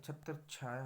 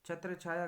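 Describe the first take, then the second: First: छत्र छाया joined with doubled 'chchh'; correct form. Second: छत्र छाया as two words, higher start; wrong form. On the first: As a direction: hold the consonant between छत्र छाया. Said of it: "होगा". (छत्र छाया, 'च्छ' दोहरा) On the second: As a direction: separate छत्र छाया with a plain 'chh'. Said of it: "गलत है". (छत्र छाया, दो अलग शब्द) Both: Shown as a demonstration.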